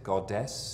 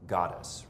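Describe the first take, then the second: First: Both syllables get about equal stress. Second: The first syllable gets the stronger stress. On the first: It is an Australian pronunciation. The speaker calls it wrong. "She kind of evenly stresses it" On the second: It is the American pronunciation. The speaker calls it right. "as opposed to the American goddess"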